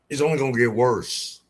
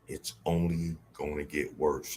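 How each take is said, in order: First: It is said in the speaker's normal voice. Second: It is said in an imitated, put-on voice.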